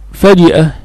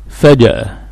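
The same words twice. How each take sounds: First: فجأة with an i in the middle syllable; kasra on jim. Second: فجأة with an a in the middle syllable; fatha on jim. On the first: Teacher sums up the purer form, with kasra. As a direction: say فجأة as "faji'a", short i after the j. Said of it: "بالكسر أفصح". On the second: Teacher quotes how common people say it, with fatha. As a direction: say فجأة as "faja'a", short a after the j. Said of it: "تفتح الماضي منه". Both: Shown as a demonstration.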